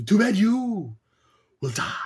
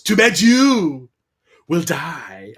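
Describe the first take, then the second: First: Slow mock-menacing villain; Sindel's line again. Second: Slow, hammed-up evil queen; Sindel's villain line. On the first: Mocking Sindel's cheesy threat to Kitana, slow hammy. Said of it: "That line was horrible". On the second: Sindel threatening Kitana, slow mock-menacing drawl. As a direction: drag it out like a camp villain. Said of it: "Sindel just points at Kitana and goes".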